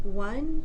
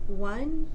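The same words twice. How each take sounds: First: The voice is relaxed and fully voiced. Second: The voice is relaxed and fully voiced.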